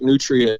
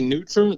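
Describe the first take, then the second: First: It is said with the standard pronunciation. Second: It is said with the local pronunciation. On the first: The speaker is using the technically correct form. "if you want to be technically correct, Nutria is ... the right way to say it" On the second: The speaker is using the regional form. "I say Nutra. That's like the local pronunciation"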